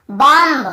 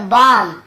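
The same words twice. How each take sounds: First: "बॉम्ब" with a sounded final B; B pronounced. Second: "बॉम्ब" said bom, closing on M; silent B. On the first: Teacher mimics reading without the rule, "बॉम्ब" with B voiced. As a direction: end "बॉम्ब" as bom-buh. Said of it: "ऐसे पढ़ते हैं ना". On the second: Teacher corrects the reading for students, "बॉम्ब" said bom. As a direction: drop the final B of "बॉम्ब". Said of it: "यहाँ पर भी बी को नहीं पढ़ना है". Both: Shown as a demonstration.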